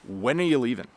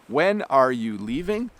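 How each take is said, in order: First: It is said quickly, squeezed into almost one word. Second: It is said slowly, with each word separate. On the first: "we compress that whole question down almost into one word" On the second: "I tried to speak slowly"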